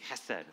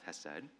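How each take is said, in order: First: The first sound is a harsh throaty rasp. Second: The first sound is soft without throaty rasp.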